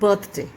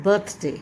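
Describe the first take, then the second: Both takes have the same delivery.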